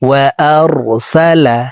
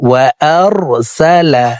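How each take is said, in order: The two takes are said the same way.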